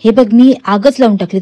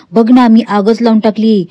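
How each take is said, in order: First: Said in the usual way. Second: Louder, gloating push on मी; gloating taunt. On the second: Retold or imitated. Nagraj taunts frightened Pratima, louder gloating boast. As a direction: rub the fire in her face. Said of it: "Nagraj जास्त बोलायला लागतो".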